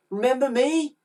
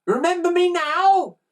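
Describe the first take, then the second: First: Put-on high-pitched boy's question; expectant boy. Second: Put-on high, loud triumphant boy; called out. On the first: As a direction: ask hopefully in a raised child's voice. Boy confronts the thieves. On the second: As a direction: call it out tauntingly from afar. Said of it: "called Ned". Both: A narrator's reading.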